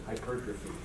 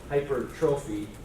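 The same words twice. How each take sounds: First: It is said smoothly with its normal pronunciation. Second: It is sounded out syllable by syllable, as spelled. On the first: This is how the word is actually said. "but pronounce it hypertrophy" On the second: This is how to remember the spelling. "you can think to spell hypertrophy"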